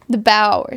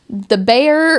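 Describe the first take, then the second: First: The name is said like 'Bauer'. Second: The name is said like 'Bayer'. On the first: The speaker calls it right. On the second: The speaker calls it wrong.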